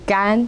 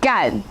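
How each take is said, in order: First: The pitch stays high and level. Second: The pitch falls sharply. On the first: It means dry. "in a high level tone" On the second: It is a really bad word. "with the falling tone"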